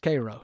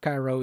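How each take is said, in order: First: It is pronounced the way the Georgia town says it. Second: It is pronounced the way the Egyptian city is said. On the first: The place meant is the town in Georgia. The speaker calls it right. "It's Georgia, so it's Cairo" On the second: The place meant is the city in Egypt. The speaker calls it wrong. "not Cairo, Egypt"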